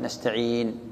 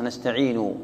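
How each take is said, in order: First: "نستعين" closed on a still n, nastaʕiin; stop on sukun. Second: "نستعين" ending in a short u, nastaʕinu; original voweled ending. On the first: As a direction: end "نستعين" on the n with no final vowel. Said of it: "فإذا وقفت تقف بالساكن". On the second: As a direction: sound the damma after the n of "نستعين". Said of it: "أصلًا". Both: Shown as a demonstration.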